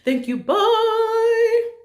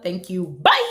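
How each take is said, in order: First: It is said in a gentle tone. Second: It is said in an aggressive tone.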